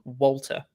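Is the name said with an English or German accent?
English. The name is said with an English accent. The speaker calls it wrong. "rather than Walter"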